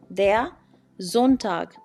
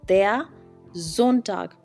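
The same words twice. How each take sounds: The two takes are said the same way.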